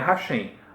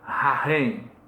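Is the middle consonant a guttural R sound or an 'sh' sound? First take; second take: sh; guttural R. First: The middle consonant sounds like 'sh'. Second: The middle consonant sounds like a guttural R. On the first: The speaker calls it wrong. "não é Hashem" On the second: The speaker calls it right. "esse C H é sempre som de um R"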